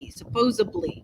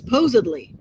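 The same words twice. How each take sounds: First: The word is said with a B sound. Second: The word is said with a D sound. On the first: The speaker calls it wrong. "people say a B" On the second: The speaker calls it right. "It's supposedly"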